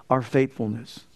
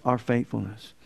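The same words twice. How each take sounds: The two takes are said the same way.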